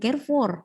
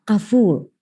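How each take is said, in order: First: The final consonant is sounded. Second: The final consonant is left silent. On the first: The speaker calls it wrong. "bacanya bukan Carrefour" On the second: The speaker calls it right. "Prancis itu nggak ada huruf mati belakangnya"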